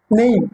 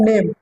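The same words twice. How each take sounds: First: NAME as "neim", with an i glide; correct English pronunciation. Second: NAME as "nem", without the i glide; wrong pronunciation. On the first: Teacher corrects pupils' English, NAME said as "neim". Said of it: "দন্ত নয়কে রস্যই ম হবে". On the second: Teacher shows pupils what to avoid, NAME said as "nem". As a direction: say NAME with a plain e vowel. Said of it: "not name". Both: Shown as a demonstration.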